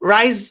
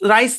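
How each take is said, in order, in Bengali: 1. শব্দটি একটি হিসহিসে s শব্দে শেষ হয়। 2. শব্দটি একটি হিসহিসে s শব্দে শেষ হয়।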